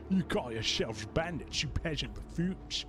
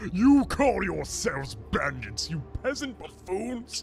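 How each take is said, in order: First: The put-on character voice stays steady throughout. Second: The put-on character voice wavers and shifts around. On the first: The speaker calls it right. "Let me start this over" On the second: The speaker calls it wrong. "I'm all over the place with his voice"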